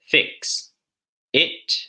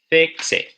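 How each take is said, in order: First: The two words are said separately. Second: The x joins smoothly onto the following vowel. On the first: The speaker calls it wrong. "Instead of" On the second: The speaker calls it right. "how about"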